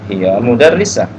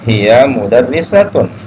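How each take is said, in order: First: The last word ends with a clipped '-ah' sound. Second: The last word ends with a full '-tun' ending.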